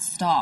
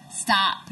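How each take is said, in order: First: The vowel is said the Canadian way. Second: The vowel is said the American way. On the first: The speaker calls it wrong. "not stop" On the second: The speaker calls it right. "you need to say stop"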